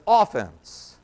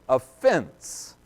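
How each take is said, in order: First: The stress is on the first syllable. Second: The stress is on the second syllable. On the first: It refers to the attacking side in sports. The speaker calls it wrong. "emphasis is on the wrong syllable there" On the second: It refers to causing someone to stumble or be offended. The speaker calls it right. "This is an offense"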